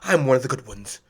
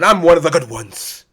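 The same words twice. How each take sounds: First: It is said in a polite interview voice. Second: It is said in a put-on white voice.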